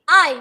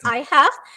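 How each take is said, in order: First: The words merge into one short syllable. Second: Both words are said fully and separately. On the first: "using contractions" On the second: "that's the full words"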